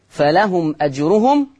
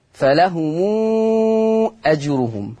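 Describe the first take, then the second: First: Said in the usual way. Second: فلهم أجرهم with the mim joined to a very long ū, held six counts; فلهم أجرهم, a long sustained "muuu" linking the words; silat al-mim. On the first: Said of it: "ثم آخرا صلة الميم". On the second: Shown as a demonstration. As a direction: slowly chant فلهم as "falahumuuu" before أجرهم. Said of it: "المقدار ست حركات".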